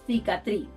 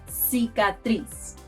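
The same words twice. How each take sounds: First: The second c sounds like th. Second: The second c sounds like an s.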